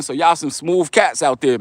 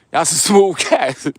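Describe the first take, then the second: First: Said in the usual way. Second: Chuckles through the words; laughing as he repeats it. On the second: Real, not acted. Teasing DC guys who stole girl.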